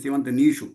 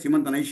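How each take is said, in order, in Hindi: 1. 'shu' से पहले का स्वर 'ee' है। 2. 'shu' से पहले का स्वर 'ai' है। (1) "ये गलत है इधर" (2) "सीमंत नैषु नहीं"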